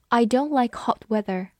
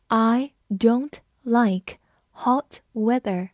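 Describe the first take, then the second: First: Said in the usual way. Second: Very slow, one word at a time; slow reading. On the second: Shown as a demonstration. Teacher models example sentence for learners, slow reading. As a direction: read slowly with clear gaps between words. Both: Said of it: "我们慢读一遍".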